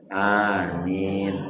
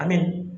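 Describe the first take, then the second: First: Both vowels are long. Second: Both vowels are short. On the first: It is the proper amen. The speaker calls it right. "hanya sama, minnya sama. Dua harkat, dua harkat" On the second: It means safe. The speaker calls it wrong. "kalau hanya pendek, minyak pendek"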